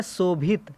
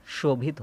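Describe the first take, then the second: First: "शोभित" begun with a plain s, as "sobhit"; wrong s sound. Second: "शोभित" begun with a clear sh, as "shobhit"; correct sh sound. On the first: Teacher reads the misspelt word to students, "शोभित" mispronounced with s. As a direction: say "शोभित" with s instead of sh. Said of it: "लेकिन शोभित नहीं होता है". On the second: Teacher corrects students' spelling, "शोभित" said with sh. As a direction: say "शोभित" with sh, not s. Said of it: "शोभित होता है". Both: Shown as a demonstration.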